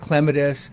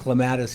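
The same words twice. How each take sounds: First: It is said the British way. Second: It is said the American way. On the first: "They pronounce it clematis" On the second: "we've always pronounced it clematis here"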